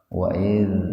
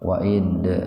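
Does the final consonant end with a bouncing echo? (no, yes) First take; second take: no; yes. First: The final consonant ends without a bouncing echo. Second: The final consonant ends with a bouncing echo. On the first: The speaker calls it right. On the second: The speaker calls it wrong.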